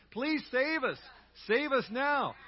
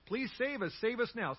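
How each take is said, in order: First: Louder, higher, leading the crowd in the words; call and response. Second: Said in the usual way. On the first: Shown as a demonstration. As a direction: proclaim it so the whole church joins in. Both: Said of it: "Say that with me".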